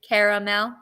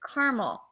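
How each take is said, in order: First: The middle vowel is pronounced, giving three syllables. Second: The middle vowel is dropped, giving two syllables. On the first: "you pronounce the A" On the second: "I think I leave the A out"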